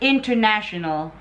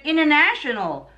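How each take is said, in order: First: It is said with a Filipino accent. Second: It is said with an American accent. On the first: "in the Philippines, or in our language, ... we say it international" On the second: "They said it international"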